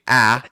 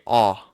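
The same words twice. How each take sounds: First: The vowel is in the speaker's own accent. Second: The vowel is in a South African accent. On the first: "So we say" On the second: "they say"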